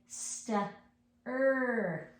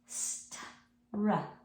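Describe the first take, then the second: First: The R is voiced as a separate 'er' syllable. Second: The R is blended straight on without 'er'. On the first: The speaker calls it wrong. "a lot of times I'll get kids who will say st-er for this. But remember, R does not say er" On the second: The speaker calls it right. "We just want to say a r, r, r for that R"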